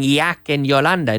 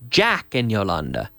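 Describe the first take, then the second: First: The first word starts with a 'y' sound. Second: The first word starts with a 'j' sound. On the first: The speaker calls it wrong. "It's not saying Yak and Yolanda" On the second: The speaker calls it right. "No, it's Jack and Yolanda"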